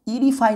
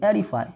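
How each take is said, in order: First: The first vowel is a long 'ee' sound. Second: The first vowel is an open 'eh' sound. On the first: The speaker calls it wrong. "ईरीफाई नहीं पढ़ के" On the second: The speaker calls it right. "एरीफाई पढ़ेंगे"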